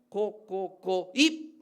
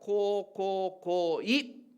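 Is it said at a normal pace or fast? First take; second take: fast; normal. First: It is said a bit faster. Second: It is said at a normal pace.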